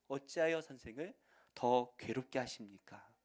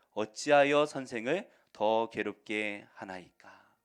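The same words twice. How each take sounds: First: Said in the usual way. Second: Solemn, drawn-out Bible reading; slow emphatic scripture reading. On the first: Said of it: "삼십오 절 말씀을". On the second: Shown as a demonstration. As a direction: read it slow and loud, weighing each word. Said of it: "삼십오 절 말씀을 한번 보실까요?".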